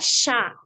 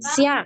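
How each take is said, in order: First: A single spread sh sound leads into the vowel. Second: An s is followed by a separate y glide. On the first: The speaker calls it right. "tapi s a ya, sha, sha gitu ya" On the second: The speaker calls it wrong. "jangan sia ya"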